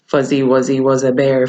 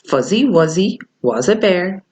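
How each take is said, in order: First: It is said very quickly. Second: It is said slowly.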